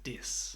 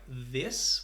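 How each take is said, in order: First: The word begins with a hard D sound. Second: The word begins with a soft TH sound. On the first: "The T H actually sounds like a D. It sounds like he says dis" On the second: "a word like this with the T H"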